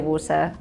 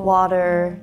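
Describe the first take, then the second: First: It has a British accent without the ah. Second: It has an American accent with an open ah. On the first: "Well, I say water" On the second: "Americans say ah"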